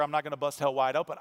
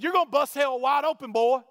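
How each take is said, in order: First: Said in the usual way. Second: Shouted, much higher and louder; angry street preacher. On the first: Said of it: "I said". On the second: Retold or imitated. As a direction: yell it at him with a finger in his face. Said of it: "And he said".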